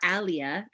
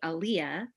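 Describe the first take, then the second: First: The name is said with an Arabic pronunciation. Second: The name is said with an English pronunciation.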